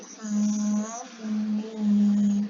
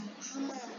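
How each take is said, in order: First: The letters are read as separate letter names. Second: The letters are read as one ordinary word. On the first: The speaker calls it right. "tapi hamim" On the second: The speaker calls it wrong. "ini juga bukan dibaca hama"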